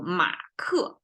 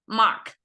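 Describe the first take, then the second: First: The name ends with an added vowel after k. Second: The name ends in a bare k sound. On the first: "add a vowel next to it" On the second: "we cannot say k by itself"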